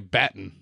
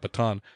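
First: It is said with a British pronunciation. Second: It is said with an American pronunciation. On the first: This is how the people in the story say it. The speaker calls it right. "they say baton" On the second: This is not how the people in the story say it. The speaker calls it wrong. "not baton"

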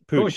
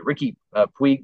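First: The name is said as 'Pooch', ending in 'ch'. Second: The name is said like the baseball player's name. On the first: The speaker calls it right. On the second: The speaker calls it wrong. "I said it like Yasiel Puig"

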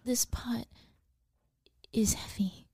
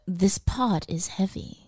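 First: It is said as if scared of the pot. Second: It is said in a plain, unafraid way.

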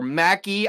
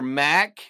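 First: The name ends with an added vowel sound. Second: The name ends without a final vowel sound. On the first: "So maybe you pronounce the E at the end" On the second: "Let's go silent E"

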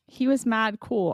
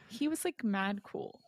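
First: It is said in a plain, normal voice. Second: It is said in a Valley Girl accent.

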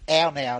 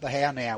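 First: The first word starts with a vowel, no H. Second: The first word starts with an audible H. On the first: The speaker calls it right. "I believe the H is silent in this race. It's the ow now" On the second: The speaker calls it wrong. "not the how now. We've been calling it incorrectly"

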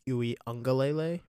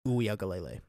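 First: The name is said with an n sound. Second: The name is said without an n sound. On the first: The speaker calls it wrong. "I've been pronouncing it Uiagalelei, but there's no N" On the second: The speaker calls it right. "There's no N in it"

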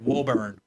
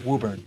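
First: The name is said the way it is spelled. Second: The name is said the local way. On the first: The speaker calls it wrong. "But it looks like Woburn" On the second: The speaker calls it right. "That's how you would say it"

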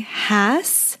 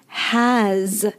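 First: The word ends with a hissing s sound. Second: The word ends with a buzzing z sound. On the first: The speaker calls it wrong. "you are saying it incorrectly" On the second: The speaker calls it right. "Make sure to say has"

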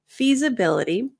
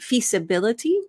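First: The middle consonant is a buzzing Z sound. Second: The middle consonant is a hissing S sound. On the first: The speaker calls it right. "The S in feasibility sounds more like a Z" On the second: The speaker calls it wrong. "that's going to sound accented"

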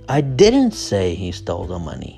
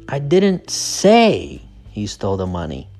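First: The word 'didn't' is stressed. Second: The word 'say' is stressed. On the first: The speaker denies ever saying it. "Didn't, right? That's where the stress is" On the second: The speaker only suggested it. "So the stress is on say"

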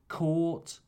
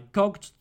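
First: The word is said with no g sound. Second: The word is said with a hard g sound. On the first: The speaker calls it right. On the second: The speaker calls it wrong.

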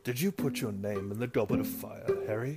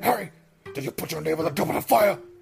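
First: The question is asked in a calm voice. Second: The question is asked in a fierce voice.

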